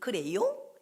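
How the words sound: It is said in a Seoul accent. A bird from Seoul speaks this way. "서울 깨꼬리는 그래요? 이렇게 하고"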